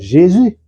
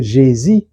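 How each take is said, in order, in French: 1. La voyelle finale est le « u » français arrondi. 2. La voyelle finale se prononce « i ». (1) "il faut pouvoir dire Jésus" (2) "les gens qui disent Jésus, quand vous parlez français"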